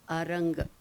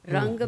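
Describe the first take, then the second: First: The word starts with an added a vowel. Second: The word starts directly with an r sound. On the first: "Ranga becomes Aranga" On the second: "Ra will not be um, pronounced without a prefix of A"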